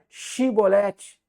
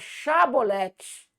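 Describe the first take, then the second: First: The first syllable has the vowel 'i'. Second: The first syllable has the vowel 'a'. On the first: The speaker calls it wrong. "Não era chibolete" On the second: The speaker calls it right. "era a palavra chabolete"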